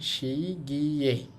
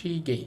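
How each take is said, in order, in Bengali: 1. দ্বিতীয় অক্ষরে 'gye' glide উচ্চারণ আছে। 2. দ্বিতীয় অক্ষরটি সাধারণ 'ge' উচ্চারণ। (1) "অথবা আপনি যদি এভাবে বলতেন শি গিয়ে" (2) "সহজে শিগে"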